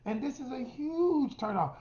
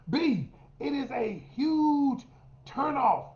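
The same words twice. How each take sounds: First: Said in the usual way. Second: Slow, with "huge" drawn out and leaned on; slow down and hit "huge" hard, pause before "turnoff"; stress on huge. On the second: Shown as a demonstration.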